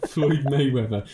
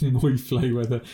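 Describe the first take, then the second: First: Said in the usual way. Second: "Moy Flayweather" with M and Fl traded, through laughter; botched name. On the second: Shown as a demonstration. Mocking his own slip to his friend, botched "Moy Flayweather". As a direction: laughingly repeat the slip "Moy Flayweather", first sounds swapped. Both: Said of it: "Awful English".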